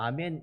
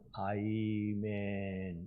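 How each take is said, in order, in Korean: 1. 이 단어는 평범한 'ah' 모음으로 시작합니다. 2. 이 단어는 'eye' 활음 모음으로 시작합니다. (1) "우리는 그냥 아멘 이러는데" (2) "이분은 아이멘 이렇게 하셨어요"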